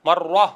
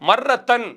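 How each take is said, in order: First: The word stops short without the final 'tan'. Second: The word ends with a full 'tan' ending. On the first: "மர்வா என்று நிறுத்துவார்கள்" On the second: "மர்ரத்தன் என்றுதான் அதை சொல்ல வேண்டும்"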